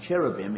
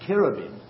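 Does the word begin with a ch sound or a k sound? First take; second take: ch; k. First: The word begins with a ch sound. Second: The word begins with a hard k sound. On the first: The speaker calls it wrong. "rather than how the English word is cherubim" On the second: The speaker calls it right. "It should be cherubim"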